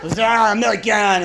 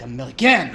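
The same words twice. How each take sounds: First: "American" drawn out slowly and louder, French style, as zəmɛlikæn; mock French accent. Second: A quick mock French "American" as kəmɪləkæ̃n; mock French accent. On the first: A Frenchman refusing to help the tourist, in a slow, louder mock French accent. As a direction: stretch "American" dismissively in a hammed-up French accent. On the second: A Frenchman brushing off the tourist, in a light mock French accent. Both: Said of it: "Be like".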